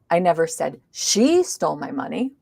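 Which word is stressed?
I. The stress is on the word I. Someone else may have said it. "maybe somebody else did"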